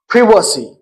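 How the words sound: Privacy is said with a British pronunciation. "Like in British English, it is"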